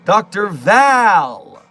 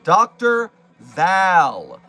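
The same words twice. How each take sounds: First: The name rhymes with pal. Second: The name rhymes with pal.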